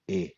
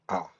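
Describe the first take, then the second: First: A gliding 'ay' vowel, as in cake. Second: An open 'ah' vowel, as in father. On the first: The speaker calls it wrong. "never like eh, as in cake" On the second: The speaker calls it right. "A is only pronounced as ah, as in father"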